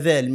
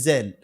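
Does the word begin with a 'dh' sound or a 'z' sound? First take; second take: dh; z. First: It begins with a soft 'dh' sound. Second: It begins with a buzzing 'z' sound. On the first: The speaker calls it right. "اقولها ذال" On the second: The speaker calls it wrong. "مش زال"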